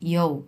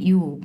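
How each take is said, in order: First: It is said with a 'yo' glide sound. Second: It is said as a plain 'yoo' sound. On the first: The speaker calls it right. "Real pronunciation হচ্ছে এটাই ইয়ৌ" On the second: The speaker calls it wrong. "এটা দেখে মনে হতে পারে যে এটা একটা ইউ উচ্চারণ হবে ইউ বাট না"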